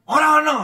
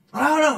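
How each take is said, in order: First: High, loud snap; wife yelling. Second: High-pitched curt shout; wife yelling. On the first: Wife answers husband's dinner question, yelling. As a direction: yell it back at him. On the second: Wife refuses husband again, yelling. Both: Acted. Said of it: "Kalau dia teriak-teriak".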